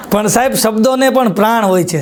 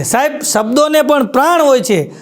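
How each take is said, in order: First: Said in the usual way. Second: Pran lifted and weighted in the repeat; stress on Pran. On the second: Shown as a demonstration. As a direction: lean on the word Pran as a punchline.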